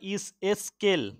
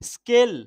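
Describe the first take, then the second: First: An added 'i' vowel comes before the cluster. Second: The word starts directly with the consonant cluster.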